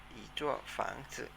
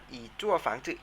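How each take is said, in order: First: อีจั่วฝังจื่อ drawn out slowly and softly; slow soft model of อีจั่วฝังจื่อ; อีจั่วฝังจื่อ said slowly, syllable by syllable. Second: Said in the usual way. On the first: Shown as a demonstration. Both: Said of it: "ออกเสียงตามนะครับ".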